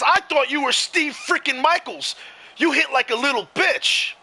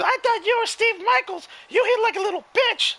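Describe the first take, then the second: First: It is said in a normal speaking voice. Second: It is said in a high, whizzy voice.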